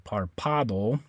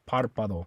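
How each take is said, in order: First: The stress is on the second syllable. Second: The stress is on the first syllable. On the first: The speaker calls it wrong. "you would stress the second last syllable. It would be this A right here" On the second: The speaker calls it right. "I'm going to put the stress right here on that A because that's where the accent mark is"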